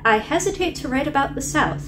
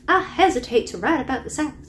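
First: It is said in the speaker's usual accent. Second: It is said in a put-on Southern accent.

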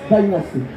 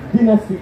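First: It is said with an English pronunciation. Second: It is said with a Mexican Spanish pronunciation. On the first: This is the original way to say it. The speaker calls it right. "pero es Dynasty" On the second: This is how people in Mexico say it. The speaker calls it wrong. "aquí en México se dice Dynasty"

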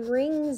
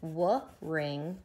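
First: The word starts with the R sound. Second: The word starts with a sounded W. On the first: The speaker calls it right. "So the W is definitely silent W" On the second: The speaker calls it wrong. "Your mom doesn't w-ring out your washcloth"

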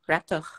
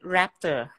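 First: The R is a French throaty R. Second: The R is an English R.

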